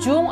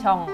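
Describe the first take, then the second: First: The vowel sounds like 'u' as spelled. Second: The vowel sounds like an open 'o'. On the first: The speaker calls it wrong. "Jangan Jung atau Jeong" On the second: The speaker calls it right. "bacanya Chong"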